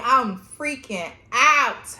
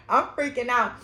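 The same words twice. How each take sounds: First: Drawn-out panicked words; reliving the panic, slow and loud; slow, loud freaking out. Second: Said in the usual way. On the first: Retold or imitated. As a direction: let the panic stretch each word.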